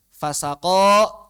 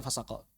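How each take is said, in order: First: "fasako" dipanjangkan, lantang dan lambat; pelafalan diperjelas. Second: Said in the usual way. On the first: Shown as a demonstration. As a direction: ulur kata "fasako" perlahan dengan suara keras. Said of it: "Dengernya kayak". (ucapan "fasako" yang diperagakan lambat-lambat) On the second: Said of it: "Tulisannya gimana".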